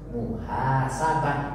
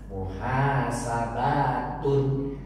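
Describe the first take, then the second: First: The word ends with a soft 'ah' sound. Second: The word ends with a full 'tun' syllable. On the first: The reader stops after the word. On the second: The word is read without stopping after it.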